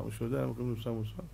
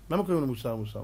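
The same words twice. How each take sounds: First: Hushed question. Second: Said in the usual way. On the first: Shown as a demonstration. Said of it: "repeated question, quiet". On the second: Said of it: "repeated question".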